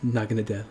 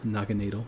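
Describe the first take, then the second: First: "Naganadel" as NAH-guh-nuh-DELL; "Naganadel" read plainly, -dell; as-read pronunciation. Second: "Naganadel" as NAH-ga-NAY-dul; "Naganadel" the German way, -NAY-dul; German-style pronunciation. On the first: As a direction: say "Naganadel" ending in short-E DELL. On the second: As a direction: say "Naganadel" with long AY and weak -dul. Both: Shown as a demonstration. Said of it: "whatever you wanna call him".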